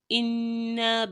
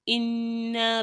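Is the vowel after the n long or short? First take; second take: long; long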